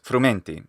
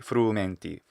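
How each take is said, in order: First: The U vowel is said short. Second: The U vowel is held long. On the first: The speaker calls it wrong. "he also shortens the u in frumenti. He says frumenti" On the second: The speaker calls it right. "should be frumenti"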